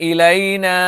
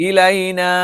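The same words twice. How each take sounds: The two takes are said the same way.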